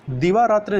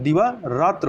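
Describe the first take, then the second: First: दिवारात्र with final "tri"; wrong ending. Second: दिवारात्र with plain final "tra"; correct ending. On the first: Teacher rejects the error, दिवारात्र ending in i. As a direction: say दिवारात्र as "diva-ratri". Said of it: "दिवारात्र नहीं होता है". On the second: Teacher corrects for learners, दिवारात्र without final i. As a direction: say दिवारात्र as "diva-ratra". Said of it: "दिवारात्र होता है". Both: Shown as a demonstration.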